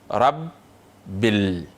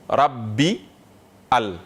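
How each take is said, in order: First: The article's initial vowel is silent and linked. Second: The article's initial vowel is pronounced separately. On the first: The speaker calls it right. "On dit rabbil" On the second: The speaker calls it wrong. "on ne peut pas dire rabbi al"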